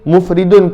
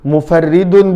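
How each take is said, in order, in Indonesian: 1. Kata ini punya tiga suku kata, dengan r tunggal. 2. Kata ini punya empat suku kata, dengan r ganda. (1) "juga boleh dibaca mufridun" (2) "boleh dibaca mufarridun"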